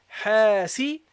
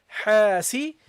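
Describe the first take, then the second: No difference in how they are said.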